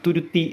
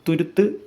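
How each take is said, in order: First: The word ends with an 'ee' vowel sound. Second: The word ends with a short 'u' sound. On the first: The speaker calls it wrong. "പലരും തിരുത്തി, തുരുത്തി എന്നൊക്കെ പറയാറുണ്ട്" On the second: The speaker calls it right. "ശരിക്കുള്ള ഉച്ചാരണം തുരുത്ത് എന്നാണ്"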